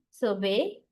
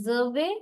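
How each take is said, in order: First: Survey as a verb, sur-VEY, second syllable stressed; weight on VEY in survey; survey with end stress. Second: Survey as a noun, SUR-vey, first syllable stressed; survey with front stress. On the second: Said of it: "noun, survey". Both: Shown as a demonstration.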